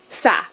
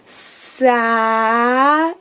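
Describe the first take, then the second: First: The sounds are said quickly together. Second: The sounds are drawn out slowly. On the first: "now say it fast" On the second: "They will say it slowly"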